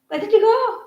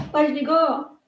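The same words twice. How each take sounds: First: High pet-talk coo. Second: Said in the usual way. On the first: Real, not acted. Owner cooing to her pet, high and sing-song. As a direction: coo it up high like talking to a puppy.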